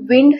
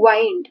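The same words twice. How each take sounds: First: The vowel is short, as in 'win'. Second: The vowel is long, as in 'wine'. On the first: It means moving air. "जेव्हा आपण wind हे pronunciation करतो तेव्हा त्याचा अर्थ होतो वारा" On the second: It means to twist or coil. "याच word च pronunciation असं करायचं आहे wind"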